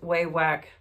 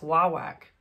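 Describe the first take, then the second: First: The first syllable sounds like 'way'. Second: The first syllable sounds like 'wah'. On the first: The speaker calls it wrong. "I just remembered I'm saying it wrong" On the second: The speaker calls it right. "It's I think it's wah whack"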